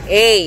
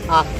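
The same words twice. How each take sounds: First: The letter is said by its alphabet name. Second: The letter is said as its reading sound. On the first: "Tapos ito" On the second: "Pero ang basa sa kanya"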